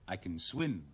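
The word can is weak and unstressed. Stating an ability plainly. "個CN 用個弱音讀嘅"

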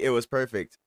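It is said in an approving, confident tone. The speaker fully endorses it.

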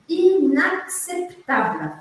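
The word is said emphatically, syllable by syllable.

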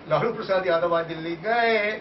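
The stress falls on the word gaye. He has finally gone, to the speaker's relief. "Thank God."

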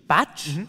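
The word is said with an English accent. "wie im Englischen"

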